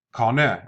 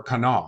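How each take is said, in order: First: "kana" said as KAH-neh; mistaken pronunciation. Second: "kana" said as kuh-NAH; self-corrected "kana", light first syllable, open final "ah"; corrected pronunciation. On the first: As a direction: end "kana" on a short "eh". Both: Real, not acted. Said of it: "excuse me".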